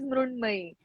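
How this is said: Said with 'Mrun' and ending in 'may'. "In Marathi, it is Mrunmay"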